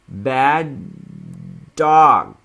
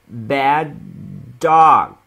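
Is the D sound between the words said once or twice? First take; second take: once; once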